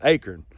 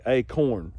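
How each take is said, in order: First: "acorn" as AY-kern, dropped low; own regional pronunciation. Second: "acorn" as AY-corn, drawn out; common pronunciation. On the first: Showing viewers his own way, acorn as AY-kern. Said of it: "that's how I say it". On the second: Showing how most people say it, acorn as AY-corn. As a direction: give "acorn" a full, slow "corn" ending. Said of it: "most people, I think, say acorn". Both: Shown as a demonstration.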